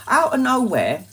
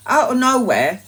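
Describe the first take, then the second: No difference in how they are said.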